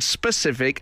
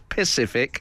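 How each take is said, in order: First: The word begins with an s sound. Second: The word begins without the s sound. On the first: The speaker calls it right. "pronounce the word specific" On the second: The speaker calls it wrong. "as pacific"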